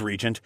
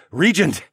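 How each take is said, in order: First: Said in the usual way. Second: Loud, higher shout of the word; father shouting over the gale; screamed over wind. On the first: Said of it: "in a measured voice". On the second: A narrator's reading. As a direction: yell it over the storm. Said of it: "I screamed over the gale".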